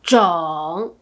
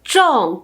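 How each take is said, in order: First: The pitch dips low, then rises. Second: The pitch falls sharply from high to low. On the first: It means type. "troisième ton" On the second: It means to plant. "quatrième ton"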